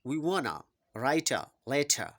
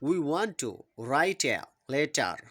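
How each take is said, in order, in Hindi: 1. 'want to' को जोड़कर 'wanna' बोला जाता है। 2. 'want to' दो पूरे शब्दों की तरह बोला जाता है।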